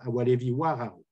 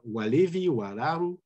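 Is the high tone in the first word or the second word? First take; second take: second word; first word. First: The high tone moves rightward into the second word. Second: The high tone stays on the first word's final syllable. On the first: The speaker calls it right. "but you will have Walevi Wararu" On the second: The speaker calls it wrong. "you will not have Walevi Wararu as expected"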